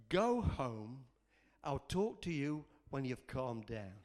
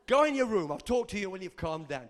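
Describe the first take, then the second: First: Low, measured fatherly reply; the Lord. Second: Louder, brisk parental order; parent to kids. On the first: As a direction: send a child home calmly and firmly. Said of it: "I felt the Lord say to me". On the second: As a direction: send the kids off firmly. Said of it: "I do that to my kids". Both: Retold or imitated.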